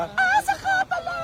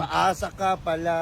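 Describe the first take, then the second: First: High cracked squeal on "Paasa"; squeaky falsetto. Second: Said in the usual way. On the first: Acted. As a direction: shoot way up into falsetto on "Paasa ka pala".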